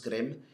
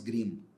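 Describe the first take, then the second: First: It is said with an attempted German accent. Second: It is said with a familiar Portuguese pronunciation. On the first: "meti esse, esse tentativo de sotaque alemão" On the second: "falar do jeito que vocês conhecem"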